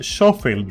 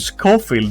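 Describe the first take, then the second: First: The name begins with a soft 'sh' sound. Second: The name begins with a hard 'sk' sound. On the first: The speaker calls it right. "I'm pretty sure this is like Schofield" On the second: The speaker calls it wrong. "Why is everyone saying it with a hard K there?"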